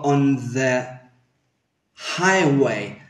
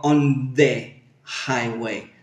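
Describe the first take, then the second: First: Relax "the" into a schwa before "highway"; correct "the". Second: "the" with a full Spanish e, like "deh"; wrong "the". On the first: Teacher shows what she does say, softened "the". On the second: Teacher shows what she avoids, Spanish-sounding "the". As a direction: say "the" as a hard "de" before "highway". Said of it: "yo no digo". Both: Shown as a demonstration.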